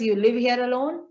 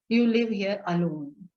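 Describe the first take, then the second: First: The voice rises at the end. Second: The voice falls at the end.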